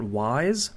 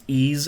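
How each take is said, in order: First: The name starts with a w sound. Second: The name starts with a vowel sound. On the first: The speaker calls it wrong. "and not wise" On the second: The speaker calls it right. "how it's ease"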